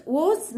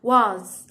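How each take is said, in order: First: Was without the open A, the wrong way. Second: Was with the mouth opened on the A vowel; correct was. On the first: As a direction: say was with a closed, rounded vowel, the mistake to avoid. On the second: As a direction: slowly say was with a wide open A. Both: Shown as a demonstration. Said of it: "يعني بنفتح ال- ال A".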